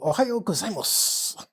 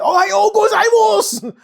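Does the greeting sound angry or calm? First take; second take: calm; angry. First: It is said calmly and with restraint. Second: It is said forcefully and sounds angry. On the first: The speaker sounds properly Japanese. The speaker calls it right. "I keep my hands very close to my body. Very short movements" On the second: Listeners would think the speaker is angry. The speaker calls it wrong. "They would say he's angry Japanese"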